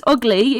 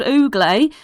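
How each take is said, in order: First: Said in the usual way. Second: Oogly with a long oo and "-lay" ending; OO-glay pronunciation. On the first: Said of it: "It means he's called Oogly". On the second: Acted. Kid explains the owlbear's name, Oogly said OO-glay. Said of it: "That don't mean he's ugly".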